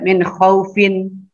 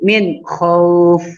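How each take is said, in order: First: The phrase ends with an -in syllable after f. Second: The phrase stops on the f sound. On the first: The speaker calls it wrong. "tidak dibaca min khaufin" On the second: The speaker calls it right. "tapi min khauf"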